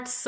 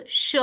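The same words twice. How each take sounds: First: "s" as a bare s with short vowel; plain s sound. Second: "sh" as a hushing sound with short vowel. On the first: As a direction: say "s" without any h. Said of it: "not s anymore". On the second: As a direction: say "sh", not a plain s. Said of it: "S having apostrophe becomes sh". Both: Shown as a demonstration.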